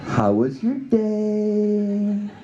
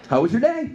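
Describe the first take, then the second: First: It is said in a motherly tone, as if to a child. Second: It is said in a plain, neutral tone. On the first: It sounds like a parent checking on a child. "it comes out more like" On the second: It is a simple, innocent question. "She says"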